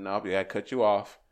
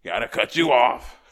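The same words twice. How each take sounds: First: Said in the usual way. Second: Louder and slower insistent repeat; loud, slow, final cutoff; firm repeat. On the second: Retold or imitated. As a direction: slam the door on it, louder and slower. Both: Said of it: "I said".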